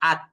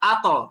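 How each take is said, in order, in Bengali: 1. শেষ ব্যঞ্জনটি কোনো ঝাঁকুনি ছাড়াই সোজাসুজি থেমে যায়। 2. শেষ ব্যঞ্জনটি একটি প্রতিধ্বনিত ঝাঁকুনি দিয়ে ছাড়া হয়। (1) "এই ত হরফটা যদি আপনি কলকলা না করেন" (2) "যখন কলকলা করবেন"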